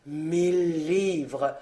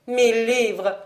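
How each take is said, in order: First: Low, very slow repetition; mechanical. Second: Brisker, unimpressed echo; echoing retort. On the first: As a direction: repeat it mechanically, drawing it out slowly. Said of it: "répéta-t-il machinalement". (machinalement, d'une voix lente et basse) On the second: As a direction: toss the offer back in turn. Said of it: "répéta ce dernier à son tour". (répété à son tour, plus vivement) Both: A narrator's reading.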